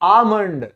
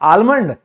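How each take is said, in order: First: The L sound is left out entirely. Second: The L sound is pronounced in the word. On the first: The speaker calls it right. "ये silent है, इसको बोला जाता है आमंड" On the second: The speaker calls it wrong. "अरे नहीं रे, यहां पे जो ये आप एल देख रहे हैं ये साइलेंट है"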